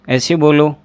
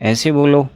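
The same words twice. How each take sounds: The two takes are said the same way.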